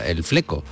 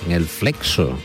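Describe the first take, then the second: First: The x is pronounced as a plain k. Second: The x is pronounced as ks.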